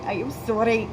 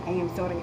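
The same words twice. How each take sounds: First: Louder, playful "sorry" before a laugh; exaggerated apology. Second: "sorry" said lower and level; low-key apology. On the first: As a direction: punch out "I am sorry" in mock earnest. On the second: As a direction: say "I am sorry" low, without pushing it. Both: Shown as a demonstration. Repeats apology, playing with her accent.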